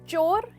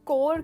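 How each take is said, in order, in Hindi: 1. यह शब्द ch की आवाज़ से शुरू होता है। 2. यह शब्द k की आवाज़ से शुरू होता है। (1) "चोर इज द राइट प्रोनाउंसिएशन" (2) "ये जनरली लोग कोर कहते हैं, जो गलत है"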